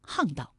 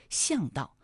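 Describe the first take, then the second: First: 巷道 pronounced hàngdào; correct hàngdào reading. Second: 巷道 mispronounced as xiàngdào; misread as xiàngdào. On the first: Host corrects the common misreading, 巷道 as hàngdào. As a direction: say 巷道 with an h sound, hàngdào. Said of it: "还有另外一个读音呢". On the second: Host shows listeners the common misreading, 巷道 as xiàngdào. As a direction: say 巷道 with an x sound, xiàngdào. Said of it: "有些朋友就会误读为". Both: Shown as a demonstration.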